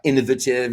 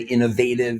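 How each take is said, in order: First: It is said with a British pronunciation. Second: It is said with an American pronunciation. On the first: "British people saying" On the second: "we say innovative in, in the States"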